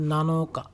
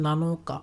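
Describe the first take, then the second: No difference in how they are said.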